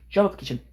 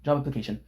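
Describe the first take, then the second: First: "Job application" pitched up high and pushed louder; hammed-up nagging "Job application"; the third "Job application" jumps up, mocking the nagging; exasperated mock repeat. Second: Said in the usual way. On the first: Mocking mom's repeated texts.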